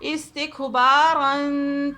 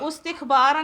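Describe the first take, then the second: First: The word begins with an i vowel. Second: The word begins with a u vowel. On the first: The speaker calls it right. "अलिफ को भी हम कसरा देकर" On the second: The speaker calls it wrong. "उस्तिखबारा नहीं पढ़ेंगे"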